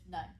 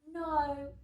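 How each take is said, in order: First: The vowel is short and clipped. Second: The vowel is stretched out long. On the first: "instead of just no" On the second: "say things in a slightly longer way"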